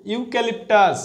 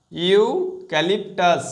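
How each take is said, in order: First: Said in the usual way. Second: eucalyptus said very slowly, every syllable stretched; slow, drawn out. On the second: Shown as a demonstration. Teacher to students drilling the spelling, very slow eucalyptus. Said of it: "ই ইউ".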